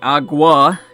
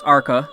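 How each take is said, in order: First: The middle consonant sounds like a soft G. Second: The middle consonant sounds like a hard K. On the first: The speaker calls it wrong. "I've been accidentally mispronouncing" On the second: The speaker calls it right. "it's not, it's Arca"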